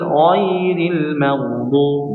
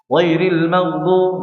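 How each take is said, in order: First: The sound before maghdub is held for two beats. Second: The sound before maghdub is cut short. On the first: The speaker calls it right. "diberikan dua rakaat" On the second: The speaker calls it wrong. "Jangan sampai"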